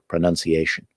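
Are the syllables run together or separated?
run together. The syllables are run together smoothly. "And then they start to run them together"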